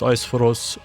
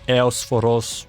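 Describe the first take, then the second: First: The name begins with an 'eye' sound. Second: The name begins with an 'ee-oh' sound. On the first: "which I pronounce Eisphorus" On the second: "it is probably Eosphoros"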